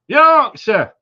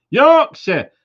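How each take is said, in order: First: Yorkshire shouted high and loud in broad Yorkshire; mock Yorkshire accent. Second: Said in the usual way. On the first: Greeting a viewer in Leeds, in a loud mock Yorkshire accent. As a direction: bellow Yorkshire like a proud local. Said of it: "Sorry about my accents".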